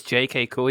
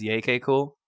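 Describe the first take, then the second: First: "J K cool" with J said the English way, like "jay". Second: "Yay, K cool" with J said the Swedish way, "yay". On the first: Host sets up Carl's habit by first saying "J K cool" the English way. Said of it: "especially when Carl says". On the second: Host imitates Carl saying "Yay, K cool" with a Swedish J. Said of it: "he says". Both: Retold or imitated.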